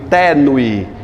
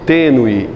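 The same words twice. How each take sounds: First: The first vowel is pronounced open. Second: The first vowel is pronounced closed. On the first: The speaker calls it wrong. "Eu não digo tênue" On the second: The speaker calls it right. "Que a vogal é fechada"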